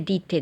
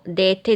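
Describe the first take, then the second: First: The first vowel is a plain i. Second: The first vowel is a plain e.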